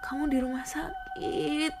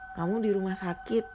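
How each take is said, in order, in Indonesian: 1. Diucapkan dengan nada sedih dan berlinang air mata. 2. Diucapkan dengan nada datar tanpa emosi. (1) "Kan sedih guys, sedih-sedih" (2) "Oh, beda, salah"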